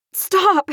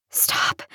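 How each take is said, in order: First: High, urgent yell. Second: Soft, breathless whisper; hoarse whisper. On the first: Woman held in the air, one last time, yelling. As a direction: yell it out desperately. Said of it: "I yelled one last time". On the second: Choked woman begging the man holding her, whispering hoarsely. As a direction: whisper it with no voice left. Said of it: "I whispered hoarsely". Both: A narrator's reading.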